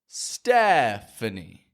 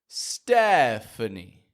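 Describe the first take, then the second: First: Only the first vowel is full; others are weak. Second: Only the first vowel is full; others are weak.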